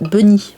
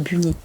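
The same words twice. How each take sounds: First: The word is said with an English pronunciation. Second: The word is said with a French pronunciation. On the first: This is the book's actual title. The speaker calls it right. "Donc c'est Bunny" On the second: This is the cartoon character's name. The speaker calls it wrong. "pas Bunny d'ailleurs. Ça c'est l'habitude de Sailor Moon"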